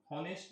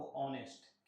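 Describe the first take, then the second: First: हॉनेस्ट with a spoken h at the start; wrong pronunciation. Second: ऑनेस्ट with a silent h, starting on the vowel; correct pronunciation. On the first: Teacher showing the wrong way, हॉनेस्ट with an h. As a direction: say हॉनेस्ट with a breathy h sound first. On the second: Teacher correcting the student, ऑनेस्ट without h. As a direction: say ऑनेस्ट with no h, open o first. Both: Shown as a demonstration. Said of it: "हॉनेस्ट नहीं बाबू, ऑनेस्ट".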